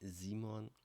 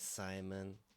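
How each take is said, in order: First: The name is pronounced the German way. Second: The name is pronounced the English way.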